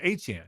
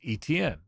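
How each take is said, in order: First: It sounds like 'ay-chan'. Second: It sounds like the letters E, T, N. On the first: The speaker calls it right. "the proper pronunciation of the name is Etienne" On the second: The speaker calls it wrong. "like the three letters Etienne"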